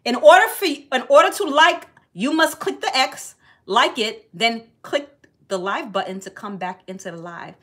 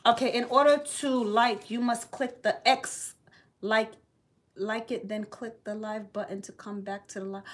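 First: Loud announcement. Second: Soft mumbled reading of a comment; reading to herself. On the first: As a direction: call it out to the whole room. Announcing the comment's instructions. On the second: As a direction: read it half under your breath. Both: Real, not acted.

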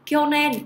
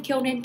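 First: Kyonen said clearly, higher and louder, falling; model reading. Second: Said in the usual way. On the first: Shown as a demonstration. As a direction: read Kyonen out as a model word. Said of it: "kyonen cái này thì mình dịch là năm ngoái này". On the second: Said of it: "kyonen cái này thì mình dịch".

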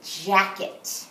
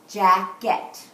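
First: Said in the usual way. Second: "Jacket" split into its two beats, louder; syllable counting. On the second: Shown as a demonstration. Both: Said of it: "Let's count the syllables in".

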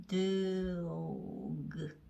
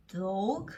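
First: Dog drawn out sound by sound, 드-오-그. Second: Said in the usual way. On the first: Shown as a demonstration. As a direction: slowly blend 드, 오, 그 into one word. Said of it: "그". (드오그를 한 소리씩 길게 늘여서) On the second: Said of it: "드오그".

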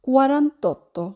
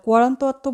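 First: Said in the usual way. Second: "quarantotto" said as quaranta-otto with both vowels; wrong vowel kept. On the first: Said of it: "আমরা বলবো". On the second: Shown as a demonstration. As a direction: keep the a before otto. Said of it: "quarantotto বলবো না".

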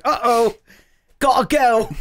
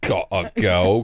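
First: Higher, hammed-up Cockney voice; botched Cockney accent. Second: Slow, lower imitation of bad Cockney; mock Cockney accent. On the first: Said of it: "he's fucking Cockney, Jackie". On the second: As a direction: mimic a botched Cockney accent, dragged out. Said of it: "'cause he's fucking Cockney".

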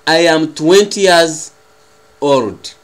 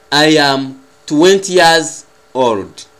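Both takes have the same delivery.

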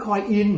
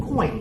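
First: "coin in" as coi-IN, louder and higher; split into parts. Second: "coin" merged into one syllable; forced single syllable. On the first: Teacher shows what hides in the word, "coin in" split. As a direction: pull "coin in" apart so the IN stands out. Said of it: "ซึ่งมันคือ". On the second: Teacher shows student the correct form, one-syllable "coin". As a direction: say "coin" in one go, without a separate IN. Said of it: "บังคับเองเลย". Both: Shown as a demonstration.

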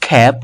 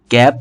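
First: খ্যাপ with a puffed k, "khæp"; aspirated K. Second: Said in the usual way. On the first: Shown as a demonstration. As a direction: burst air into খ্যাপ. (খ্যাপ মহাপ্রাণ খ দিয়ে) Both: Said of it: "খ এর মতো হবে".

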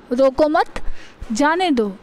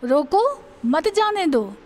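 First: "रोको मत" kept together, rising on मत, short pause, then falling जाने दो; group मत with रोको, break, then say जाने दो; pause after मत. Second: Drawn-out falling "रोको", break, then "मत जाने दो" run together; pause after रोको. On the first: Teacher showing how a comma changes meaning, pause after मत. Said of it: "इसको हम कॉमा लगा के बोल सकते हैं". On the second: Teacher moving the comma to flip the meaning, pause after रोको. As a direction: stop after रोको, joining मत onto जाने दो. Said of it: "कॉमा लगा के बोल सकते हैं". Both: Shown as a demonstration.

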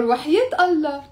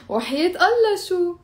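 First: Teasing وحياة Allah, stress on وحياة; sarcastic no. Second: Higher, teasing rise on Allah شو; sarcastic question. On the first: Teacher shows students a sarcastic refusal. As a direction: scoff it as a mocking refusal. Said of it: "Or you can even say". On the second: Teacher shows students a mocking never. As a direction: ask it mockingly, as if no way. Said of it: "Or you can even say وحياة Allah شو". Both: Shown as a demonstration.

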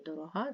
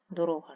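First: Дорога rising on stressed -га; stress on last syllable. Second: Дорога with the weight on -ро-; stress on second syllable. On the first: Teacher explaining dear to the heart, last-syllable stress on дорога. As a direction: land on the end of дорога. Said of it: "серцю мила". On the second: Teacher explaining the word for road, second-syllable stress on Дорога. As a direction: lean on the middle of Дорога. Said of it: "шлях в значенні". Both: Shown as a demonstration.

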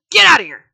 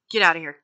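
First: "Get outta here" yelled much louder and higher; shouted dismissal. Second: Said in the usual way. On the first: Pretend. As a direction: bark "Get outta here" hard and loud. Mock refusal, second take shouted.

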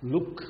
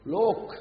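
First: Said in the usual way. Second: "లోక్" with a long o, higher and louder; correct English pronunciation. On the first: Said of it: "లుక్ని ఏమని పలకాలి". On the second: Shown as a demonstration. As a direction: say "లోక్" loudly with a drawn-out o, not a short u. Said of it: "ఇంగ్లీష్లో కరెక్ట్గా పలికితే ఎలా పలకాలి".

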